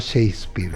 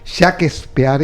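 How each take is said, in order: First: The name is said with English pronunciation. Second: The name is read letter by letter, Spanish-style. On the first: The speaker calls it wrong. "y no Shakespeare" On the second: The speaker calls it right. "se pronuncia como se escribe"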